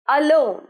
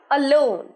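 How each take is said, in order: The two takes are said the same way.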